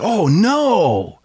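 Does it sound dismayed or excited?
excited. It sounds excited and happy.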